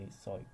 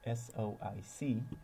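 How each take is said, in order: First: The term is said in a shorter form. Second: The term is said in its longer form. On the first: "whereas I just say S O I C. I think that's just shorter" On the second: "the proper way to pronounce uh, the package name is"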